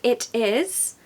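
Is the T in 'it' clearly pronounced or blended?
pronounced. The T is crisply pronounced, sounding British.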